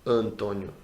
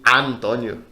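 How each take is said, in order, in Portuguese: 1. A primeira vogal é fechada, como um schwa. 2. A primeira vogal é aberta, como um "a" pleno. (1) "um sonzinho um pouco mais fechado" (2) "nem Antônio... Não é aberto assim"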